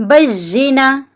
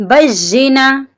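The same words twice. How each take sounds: Both takes have the same delivery.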